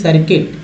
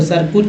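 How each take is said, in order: First: The second syllable has an 'i' vowel. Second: The second syllable has a 'u' vowel. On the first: The speaker calls it right. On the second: The speaker calls it wrong. "वो सर्कुट नहीं"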